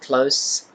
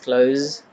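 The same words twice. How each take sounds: First: The word ends with an s sound. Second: The word ends with a z sound. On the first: It is the adjective meaning near. "So you are using s sound" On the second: It is the verb meaning to shut. "with Z as at the end of the word"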